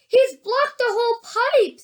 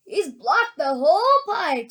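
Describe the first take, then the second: First: High, excited exclamation; exclaiming. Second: Put-on understated older-man voice; grandpa. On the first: Onlooker seeing the pipe blocked, high and excited. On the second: Grandpa Joe seeing the pipe blocked, measured. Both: A narrator's reading.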